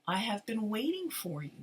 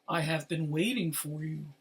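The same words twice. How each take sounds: First: It is said in a normal voice. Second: It is said in a deep voice.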